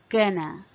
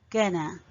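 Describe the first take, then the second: The two takes are said the same way.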